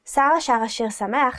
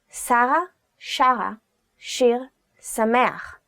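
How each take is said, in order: First: It is said fast. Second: It is said slowly.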